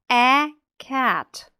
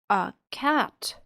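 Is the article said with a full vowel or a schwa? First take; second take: full vowel; schwa. First: The article has a full, tense 'ay' vowel. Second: The article has a weak, relaxed schwa vowel. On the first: The speaker calls it wrong. "ми не кажемо «a cat»" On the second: The speaker calls it right. "Ми кажемо «a cat»"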